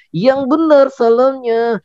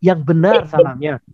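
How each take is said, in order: First: Slow, high little puppet echoing the host. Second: Said in the usual way. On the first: Acted. Puppet Odi parroting Kak Danang, high and slow. Puppet repeats host's words.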